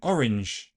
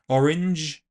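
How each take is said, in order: First: It ends in a voiceless sh fricative. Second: It ends in a voiced zh fricative.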